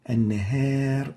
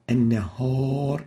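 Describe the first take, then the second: First: The long vowel is light and thin, like 'a'. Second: The long vowel is heavy and dark, like 'o'. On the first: The speaker calls it right. "is right" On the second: The speaker calls it wrong. "is wrong"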